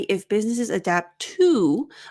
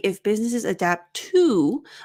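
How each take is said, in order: First: The word 'to' is full and unreduced. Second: The word 'to' is full and unreduced.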